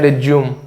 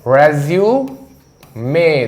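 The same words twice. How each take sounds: First: रिज्यूम said as "ri-zyoom", two syllables; रिज्यूम as "rizyoom"; wrong pronunciation. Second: रेज्यूमे said very slowly as "re-zi-yu-me", four syllables; रेज्यूमे slow, "rezyumay" with final e; correct pronunciation. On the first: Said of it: "रेज्यूमे, ध्यान रखना". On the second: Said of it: "ध्यान रखना". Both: Shown as a demonstration.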